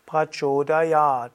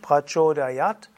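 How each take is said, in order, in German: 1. Das 'a' wird lang gesprochen. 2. Das 'a' wird kurz gesprochen. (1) "Langes A" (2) "Also nicht prachodayat"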